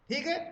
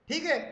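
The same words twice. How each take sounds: No difference in how they are said.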